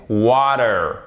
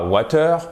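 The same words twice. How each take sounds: First: "water" slow, with long A and D-like T. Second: "water" with short A, hard T and French "eur" ending; wrong short A. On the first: Teacher giving the correct form, long-A American "water". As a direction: stretch the A in "water", American style. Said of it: "c'est un A long". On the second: Teacher showing what to avoid, French-style "water". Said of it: "C'est pas water". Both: Shown as a demonstration.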